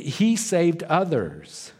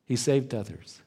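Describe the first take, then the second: First: "he saved others" pitched high and drawn out; slow, raised emphasis on "he saved others"; emphatic taunt. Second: Said in the usual way. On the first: Retold or imitated. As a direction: stretch "he saved others" slowly, starting high. Repeats the mockers' line for emphasis.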